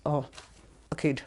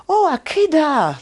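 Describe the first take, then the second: First: Said in the usual way. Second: "Akida" high, loud and drawn out; expressive elders' emphasis. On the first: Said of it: "Like, you don't go". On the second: Retold or imitated. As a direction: exclaim "Akida" with a long, high swell like the elders. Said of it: "They really put expression".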